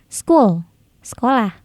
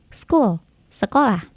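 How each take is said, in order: The two takes are said the same way.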